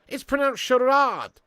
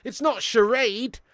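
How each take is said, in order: First: "charade" said the French way, slow, ending ahd; insisting on the French "charade", higher; French pronunciation. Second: "charade" with an ay vowel, slow and mocking; slowly mock the American "charade"; scornful demo of the wrong "charade". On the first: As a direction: slowly teach "charade" with a long French ah. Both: Shown as a demonstration.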